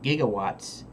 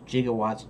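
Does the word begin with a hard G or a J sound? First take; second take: hard G; J sound. First: The word begins with a hard G sound. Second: The word begins with a soft J sound. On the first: The speaker calls it right. "It's actually gigawatts, you know, like gigabytes" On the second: The speaker calls it wrong. "I thought it was gigawatts, J-I-G"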